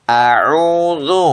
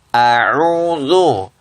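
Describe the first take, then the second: Both takes have the same delivery.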